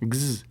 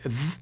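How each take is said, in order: First: The consonant is a z sound. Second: The consonant is a v sound. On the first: The speaker calls it wrong. "it's translated into z" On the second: The speaker calls it right. "like v"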